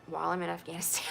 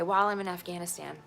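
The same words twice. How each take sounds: First: Quicker, laughing through the words; laughing repeat. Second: Said in the usual way. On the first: Shown as a demonstration. Repeating to the listener with a bitter laugh. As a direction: laugh in disbelief as you repeat it.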